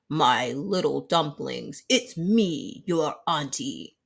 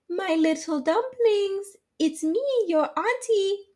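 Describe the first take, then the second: First: The voice is deep and gruff, like a growl. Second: The voice is very high-pitched and light. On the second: "in a high, high voice"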